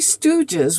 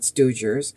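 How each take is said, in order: First: No r sound is added near the end. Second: An extra r sound is added near the end. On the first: The speaker calls it right. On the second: The speaker calls it wrong.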